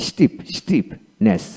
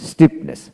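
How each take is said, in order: First: Slow stiffness, split before the ending; broken into parts. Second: Said in the usual way. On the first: Shown as a demonstration. Teacher building stiffness for learners, slow and in parts. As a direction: separate stiff from its ending, slowly. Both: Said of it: "এইভাবে ভেঙে ভেঙে".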